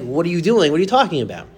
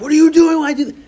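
First: Questioning yourself at ordinary volume; internal voice. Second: High, loud burst of yelling; retold scream. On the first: Retold or imitated. Parent's inner voice mid-yelling at son, self-questioning without shouting. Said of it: "but internally I'm like". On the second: Parent screaming at son over slammed finger, high retold yell. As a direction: re-enact screaming at your son. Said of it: "I screamed at my son".

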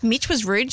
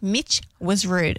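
First: "rude" lifted into a question; incredulous question. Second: "rude" falling, said slowly as a statement; matter-of-fact confirmation. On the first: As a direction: ask it in disbelief, rising on "rude". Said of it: "did I hear that right?". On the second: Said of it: "She's like". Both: Retold or imitated.

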